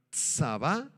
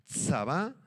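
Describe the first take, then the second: First: Said in the usual way. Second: Tsabá with a clear ts and stress on the last A; Hebrew word said carefully. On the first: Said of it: "la deletreo, T S A B grande A". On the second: Shown as a demonstration. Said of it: "con acento en la segunda A". (Tsabá pronunciado con ts y acento en la segunda A)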